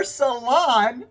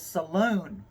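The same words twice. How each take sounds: First: Salon said as suh-LON, clearly and slowly; corrected salon. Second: Saloon said as suh-LOON, stress on the long oo; the slip, saloon with a long LOON ending; slip saying saloon. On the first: Correcting her slip to say salon for the listeners. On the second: Laughing at her own slip as she says saloon. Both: Real, not acted. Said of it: "Saloon, how funny!".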